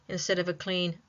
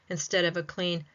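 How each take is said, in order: The two takes are said the same way.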